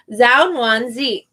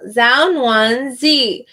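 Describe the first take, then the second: First: "Zhao" starting with a plain Z sound; "Zhao" with a Z, said slowly. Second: "Zhao Nuan Zi" drawn out slowly, falling from "Zhao"; slow, careful name reading. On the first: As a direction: say "Zhao Nuan Zi" slowly with a buzzing Z. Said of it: "you say it like a Z". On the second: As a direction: say "Zhao Nuan Zi" slowly, every syllable apart. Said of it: "gonna be wrong". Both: Shown as a demonstration.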